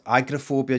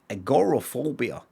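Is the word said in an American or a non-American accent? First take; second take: non-American; American. First: It is said the local, non-American way. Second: It is said the American way. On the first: "whereas here, I've always heard it as" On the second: "Americans pronounce agoraphobia"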